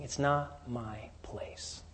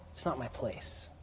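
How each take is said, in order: First: Slow, whispered and humble; hushed whisper. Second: Low-key, softer reading; quietly stated. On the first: Michael declining before the devil, in a slow whisper. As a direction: breathe it as a reverent refusal. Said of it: "Michael is saying". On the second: Michael's answer, stated softly and plainly. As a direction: say it softly, matter-of-fact. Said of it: "What he's saying is". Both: Acted.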